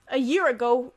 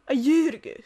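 First: It is said in a plain everyday accent. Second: It is said in a Welsh accent. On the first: "if you say" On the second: "it turns into"

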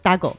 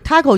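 First: It is said with a Spanish pronunciation. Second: It is said with an English pronunciation. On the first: "大概的发音是这样，就是大狗" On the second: "taco 其实是英语的发音"

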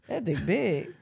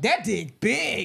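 First: It is said calmly, without exclamation. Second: It is said excitedly, with heavy exclamation. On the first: The compliment sounds like a believable small remark. The speaker calls it right. "Don't say that. Say" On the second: The compliment sounds exaggerated and unbelievable. The speaker calls it wrong. "Not with a lot of exclamations around it, though. Not like"

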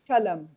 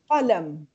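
First: The word starts with a plain k. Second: The word starts with a deep throaty q. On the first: The speaker calls it wrong. "Not kalam" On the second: The speaker calls it right. "I say qalam"

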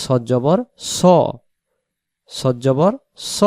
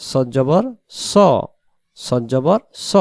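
Both takes have the same delivery.

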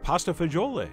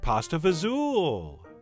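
First: The name is said in full standard Italian form. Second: The name is shortened to a clipped Italian-American form. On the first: "which you are certainly free to pronounce and spell that way" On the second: "the Italian-Americanized version"

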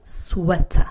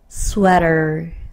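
First: It is said with a British accent. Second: It is said without a British accent.

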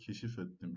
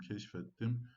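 First: The vowel in the middle is fully kept. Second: The vowel in the middle is dropped. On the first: "Ne olmuş arkadaşlar?" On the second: "Ünlü düşmesi"

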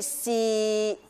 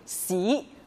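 First: The pitch stays level in the middle. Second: The pitch rises from mid to high. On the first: "第三声去到我们的中音区" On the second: "第二声往上提"

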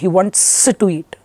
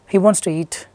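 First: The S in wants is over-pronounced and exaggerated. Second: The S in wants is light and natural. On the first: The speaker calls it wrong. "You never say" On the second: The speaker calls it right. "please try to be very natural"

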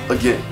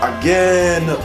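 First: It is said in a warm, gentle tone. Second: It is said in an impatient, exasperated tone. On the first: The speaker is glad to help again. The speaker calls it right. "You hear the difference?" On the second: The speaker is annoyed at having to help again. The speaker calls it wrong. "oh my goodness, I gotta show you again how to do this"

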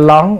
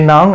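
First: The word begins with an l sound. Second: The word begins with an n sound. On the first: The speaker calls it wrong. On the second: The speaker calls it right.

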